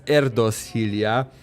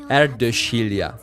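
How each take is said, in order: First: The name is pronounced in a non-Hungarian way. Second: The name is pronounced in the Hungarian way. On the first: The speaker calls it wrong. "initially I pronounced his her name uh, as" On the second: The speaker calls it right. "the pronunciation for her name is"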